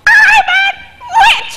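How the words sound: A high voice made rough and harsh.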